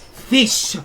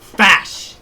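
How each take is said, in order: First: The vowel sounds like the one in 'ish'. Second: The vowel sounds like the one in 'ash'. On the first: The speaker calls it right. "I'm saying it the right way" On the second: The speaker calls it wrong. "You're saying it the wrong way"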